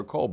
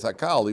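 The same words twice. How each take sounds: First: Hakol with an O in the last syllable; usual reading Hakol. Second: Hakal with an open A in the last syllable; alternative reading Hakal. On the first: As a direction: say Hakol, ending OL rather than AL. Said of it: "even though we read it". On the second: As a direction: say Hakal, ending AL rather than OL. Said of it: "it could be read as". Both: Shown as a demonstration.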